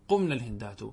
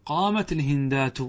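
First: قمن as qumna, linked into الهندات and lower; rejected plural nun. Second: قامت linked as qaamati into الهندات; feminine singular verb. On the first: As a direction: drop the pitch on قمن الهندات, with the -na ending. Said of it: "ولا تقل". («قمن الهندات» بنون النسوة وبصوت أخفض) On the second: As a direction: say قامت with a t ending running into الهندات. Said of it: "بل قل". («قامت الهندات» بتاء التأنيث موصولة) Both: Shown as a demonstration.

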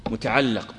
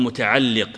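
First: "متعلق" ending in -allaq; final-syllable "a" vowel. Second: "متعلق" ending in -alliq; final-syllable "i" vowel. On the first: Teacher giving students the grammar term, "متعلق" pronounced muta'allaq. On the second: Teacher offering the alternative term, "متعلق" pronounced muta'alliq. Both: Shown as a demonstration. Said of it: "أو قل متعلق".

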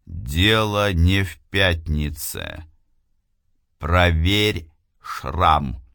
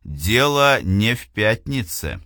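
First: Slow distant voice from beyond; slow eerie voice from nowhere; otherworldly voice. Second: Said in the usual way. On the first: Acted. The unseen voice speaks again. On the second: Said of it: "Глава тридцать вторая".

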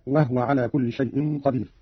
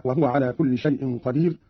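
First: وهو as wah-wa; two-syllable وهو, closed on h; Qalun reading. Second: Said in the usual way. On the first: Shown as a demonstration. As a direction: rest the ha of وهو with no vowel. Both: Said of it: "قرأ قالون بإسكان الهاء".

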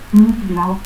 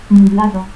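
First: Nublao as "nupblao"; P before B and no D in Nublao; added P. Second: Said in the usual way. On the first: Shown as a demonstration. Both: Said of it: "adición del fonema P antes de B".

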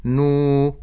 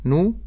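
First: "نو" as a long held nuu; lengthened vowel. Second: "نو" as a brief nu; short damma. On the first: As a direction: stretch the u of "نو". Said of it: "مد بالواو". ("نو" بمد الواو) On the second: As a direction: keep the u of "نو" to one beat. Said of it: "نون ضم نو". ("نو" بضمة قصيرة) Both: Shown as a demonstration.

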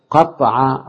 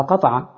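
First: قطع with the ط held double; doubled middle consonant. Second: Said in the usual way. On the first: Shown as a demonstration. Teacher giving an example of the doubled pattern, قطع with doubled ط. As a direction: stop firmly on a doubled ط in قطع. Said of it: "ده مزيد بتضعيف العين". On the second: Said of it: "أصلها قطع".

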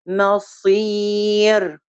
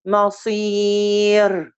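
First: مصير again very slow with the صاد held; slow sakin demo. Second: مصير said very slowly, resting on the صاد; slow sakin demo. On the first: Teacher repeating a slow, careful مصير. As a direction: draw out مصير evenly. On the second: Teacher demonstrating a slow, careful مصير. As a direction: stretch مصير and give the صاد its beat. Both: Shown as a demonstration. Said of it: "زي المخ".

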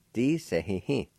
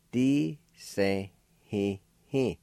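First: "Di se hi hi" run together as one word; "Di se hi hi" as a connected word; joined-up pronunciation. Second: "Di se hi hi" slow, in held separate syllables; "Di se hi hi" broken up slowly for learners; syllable-by-syllable pronunciation. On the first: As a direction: link "Di se hi hi" without pauses. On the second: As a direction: draw out each of "Di se hi hi". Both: Shown as a demonstration. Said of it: "is pronounced like this".

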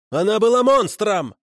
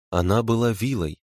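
First: High, vehement cry; angry outcry. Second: Said in the usual way. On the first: A narrator's reading. Prisoner insists the dead woman was a monster, crying out. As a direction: burst out with the accusation, pitch way up. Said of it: "выкрикнул Макар".

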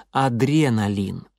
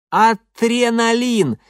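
First: Said in the usual way. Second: Loud, high, very slow gurgle; gurgling. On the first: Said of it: "И я его поправлял". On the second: A narrator's reading. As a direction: gurgle it through a mouthful of teeth. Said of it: "полон рот этих битых зубов".

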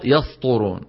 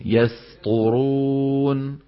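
First: "يسطرون" with س thickened into ص; heavy seen. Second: "يسطرون" slow and drawn out, thin س; light seen. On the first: Teacher showing the mistake, "يسطرون" with a heavy س. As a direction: darken the س of "يسطرون" like a sad. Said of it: "الخطأ". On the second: Teacher demonstrating tarqiq, "يسطرون" slow with a light س. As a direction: keep the س thin before heavy ط in "يسطرون". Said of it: "ترقيق السين". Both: Shown as a demonstration.

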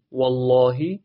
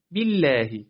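First: والله with a thick, dark L; slow, full L in والله; heavy lam. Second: بالله with a thin, clear L; slow, light L in بالله; light lam. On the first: (لامِ والله درشت) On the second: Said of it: "پس اینجا نازکه". (لامِ بالله نازک) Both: Shown as a demonstration.

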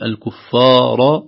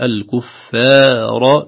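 First: "الكفار" drawn out with a thickened, heavy ف; mistaken fa. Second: "الكفار" drawn out with a light, thin ف; thinned fa. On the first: Teacher shows what to avoid, heavy ف. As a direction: wrongly darken the ف and its alif in "الكفار". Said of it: "الصحيح". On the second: Teacher gives the correct form, light ف. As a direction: keep the ف and its long vowel light in "الكفار". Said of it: "ترقيق الفاء". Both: Shown as a demonstration.

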